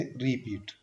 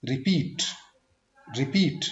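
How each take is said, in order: First: repeat with long री, soft falling पीट; wrong stress. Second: repeat with short रि, strong पीट; quick रि, push पीट; second-syllable stress. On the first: Teacher repeating the mistake, repeat stressed on रि. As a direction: stretch REE, drop पीट. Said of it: "वो बिल्कुल गलत है". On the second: Teacher giving the correct take, repeat stressed on पीट. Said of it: "second syllable पे stress". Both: Shown as a demonstration.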